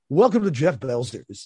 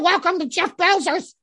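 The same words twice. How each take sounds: First: It is said in a polished announcer radio voice. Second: It is said in a plain everyday voice.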